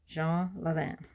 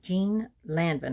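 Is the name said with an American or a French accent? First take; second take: French; American. First: The name is said with a French accent. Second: The name is said with an American accent. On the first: "The French pronunciation" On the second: "Now that's the American pronunciation"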